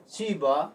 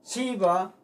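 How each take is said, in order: First: Siba said with a rising tone. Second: Siba said with a falling tone. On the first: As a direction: let the pitch climb through siba. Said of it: "This word is rising tone". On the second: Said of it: "This is falling tone". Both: Shown as a demonstration.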